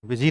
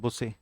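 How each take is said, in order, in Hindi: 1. इस शब्द का उच्चारण 'bizzy' जैसा है। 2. इस शब्द का उच्चारण 'boosay' जैसा है। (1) "बिजी नहीं बोलते थे" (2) "नेटवर्क बिजी को बोलते थे नेटवर्क बुसे"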